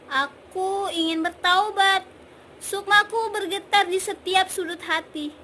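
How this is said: It sounds confused and uncertain.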